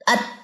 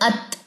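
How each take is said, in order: First: The final t has no audible puff of breath. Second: The final t ends with an audible breathy puff. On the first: The speaker calls it wrong. "तो मेरी ता तो सुनाई नहीं देगी" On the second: The speaker calls it right. "ये थ, जैसे हल्के सी आपका थूक स्प्रिंकल हो रहा है"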